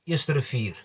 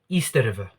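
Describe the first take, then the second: First: Said with an Afrikaans pronunciation, 'Eerste Rivier'. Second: Said with a Zimbabwean accent, sounding like 'Easter'. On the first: An Afrikaans speaker would say it this way. "if you ask a person that speaks fluent Afrikaans" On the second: A Zimbabwean speaker's home language shapes this pronunciation. "but he pronounced it like this"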